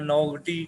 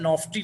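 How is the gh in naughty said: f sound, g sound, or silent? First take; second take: g sound; f sound. First: The gh is sounded as a g. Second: The gh is sounded as an f. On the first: "या नौगटी, कुछ और नहीं पढ़ना" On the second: "नॉफ्टी ना पढ़ देना"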